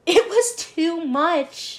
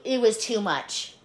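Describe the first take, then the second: First: Very slow, high "too much" with a laugh; drawn-out emphasis. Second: Said in the usual way. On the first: Real, not acted. Hotel clerk summing up the ordeal, "too much" dragged out. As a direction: stretch "too much" slowly, pitched up.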